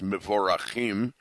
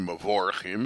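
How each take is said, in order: First: The word has a Hebrew-style pronunciation. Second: The word has an English-style pronunciation. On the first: The speaker calls it right. "in the correct Hebrew" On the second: The speaker calls it wrong. "it's not really Mevorachim"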